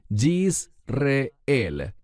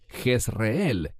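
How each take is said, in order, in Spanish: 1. El nombre se dice con su pronunciación hebrea. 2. El nombre se dice con su pronunciación española. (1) "¿Por qué enfatizo su pronunciación en hebreo?" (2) "En español decimos Jezreel"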